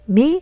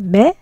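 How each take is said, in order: First: The vowel sounds like the ee in see. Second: The vowel sounds like the e in bed. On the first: The speaker calls it wrong. "and not me" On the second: The speaker calls it right. "We say me"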